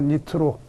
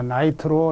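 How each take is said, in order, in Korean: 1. 첫 음절은 'ni'로 발음해요. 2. 첫 음절은 'nai'로 발음해요.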